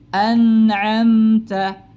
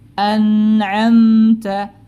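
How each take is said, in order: Both takes have the same delivery.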